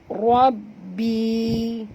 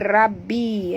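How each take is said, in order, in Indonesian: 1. Bunyi r itu berat dan tebal. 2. Bunyi r itu ringan dan tipis. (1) "Tapi baca Rab. Tebal" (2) "Jangan baca Rabbi"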